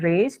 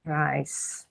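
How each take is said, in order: First: The word is said like 'raise'. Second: The word is said like 'rise'. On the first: The speaker calls it right. "membacanya raise" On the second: The speaker calls it wrong. "bukan rise"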